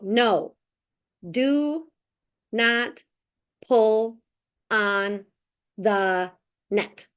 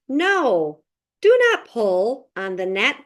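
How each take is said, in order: First: Each word is read separately with breaks between. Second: The words flow together in natural phrases. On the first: The speaker calls it wrong. "not to read it word by word ... Otherwise, our students are going to go" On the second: The speaker calls it right. "we're going to work on phrasing"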